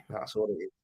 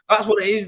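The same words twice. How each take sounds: First: Said in the usual way. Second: Higher and louder, punching it out; emphatic repeat. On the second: Real, not acted. Repeating it to the stream, emphatic and loud. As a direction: bounce it back with real gusto.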